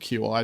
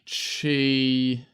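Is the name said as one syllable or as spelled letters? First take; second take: spelled letters; one syllable. First: It is said as two separate letters. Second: It is said as a single syllable. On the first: The speaker calls it wrong. "I just always called it Q I charging" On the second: The speaker calls it right. "that was how you pronounced it"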